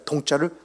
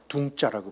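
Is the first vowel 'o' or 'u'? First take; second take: o; u. First: The first vowel is an o sound. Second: The first vowel is a u sound.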